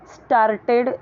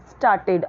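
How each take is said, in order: First: "स्टार्टेड" with the R sounded hard; drawn-out "स्टार्टेड" with an audible R before the T; wrong pronunciation of started. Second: "स्टार्टेड" with a silent R; "स्टार्टेड" with a long aa straight into the T; correct pronunciation of started. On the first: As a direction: say "स्टार्टेड" as star-ted, pronouncing the R. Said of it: "नहीं बोलना है". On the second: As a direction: say "स्टार्टेड" as staa-ted, no R. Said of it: "आ यहाँ पे silent है". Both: Shown as a demonstration.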